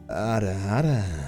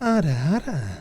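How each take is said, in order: First: It is said low, slow and gruff. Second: It is said in a higher-pitched voice.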